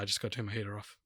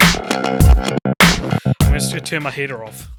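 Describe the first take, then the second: First: He speaks in his everyday non-podcast voice. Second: He speaks in his put-on podcast voice.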